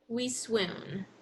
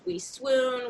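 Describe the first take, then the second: First: The voice falls at the end. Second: The voice rises at the end. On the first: "I went down on each, you know, each ending" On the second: "it's almost like we're doing a list intonation"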